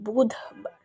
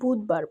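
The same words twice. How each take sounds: First: The word is said in a careful standard way. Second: The word is said in a casual everyday way. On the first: This is how it should properly be said. The speaker calls it right. "এটা আসলে হবে বুধবার" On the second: This is how people commonly say it. The speaker calls it wrong. "আমরা বাঙালি, এর জন্য আমরা বুধবার বলি"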